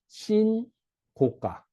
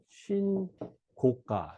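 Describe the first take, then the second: First: The first syllable is long, then a break. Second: The first two syllables are grouped together. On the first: It is a new high price. The speaker calls it right. "신이라는 뜻은요, 길다. 길게 읽어야 된다" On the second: It is the price of a report. The speaker calls it wrong. "어떤 사람은 신고가로 읽어요. 그러면 신고 알리는 가격이란 말이 되죠"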